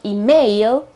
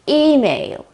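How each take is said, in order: First: The stress is on the second syllable. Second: The stress is on the first syllable. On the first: The speaker calls it wrong. "It's not email, okay, with the accent on the A" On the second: The speaker calls it right. "The accent is on the E at the very beginning"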